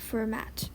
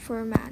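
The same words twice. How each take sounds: First: The final T is pronounced. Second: The final T is silent. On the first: The speaker calls it wrong. "not Fermat" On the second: The speaker calls it right. "you don't pronounce the T"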